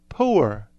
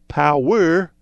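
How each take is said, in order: First: It is said as one Southern-sounding syllable. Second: It is said with two full syllables.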